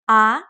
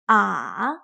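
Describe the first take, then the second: First: The pitch starts mid and rises. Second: The pitch dips down then rises again. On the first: "It starts in the middle, semi-high, and goes up" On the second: "It starts in the middle, dips down, and then goes up again"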